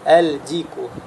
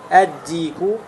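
First: The L is clearly pronounced before the D. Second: The L merges into a doubled D sound. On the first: The speaker calls it wrong. "очень трудно для произнесения" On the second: The speaker calls it right. "«лям» не произносится"

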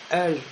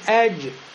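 First: The final j is devoiced into an sh sound. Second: The final j is voiced with an echoing bounce. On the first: The speaker calls it wrong. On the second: The speaker calls it right.

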